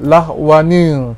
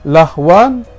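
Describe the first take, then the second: First: The word ends with an added 'nil' syllable. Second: The word ends plainly on the nasal 'an'. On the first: The speaker calls it right. "jadi tambah nun baris bawah" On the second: The speaker calls it wrong. "Lahwan tidak boleh"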